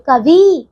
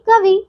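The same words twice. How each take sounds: First: कवि with a long falling vee; wrong long vowel. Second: कवि with a short final i; short final vowel. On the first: Teacher showing the misspelling, कवि with long ee. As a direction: stretch the final ee of कवि. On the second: Teacher correcting pupils, कवि with short final i. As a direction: end कवि quickly on vi. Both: Shown as a demonstration. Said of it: "नहीं कवि".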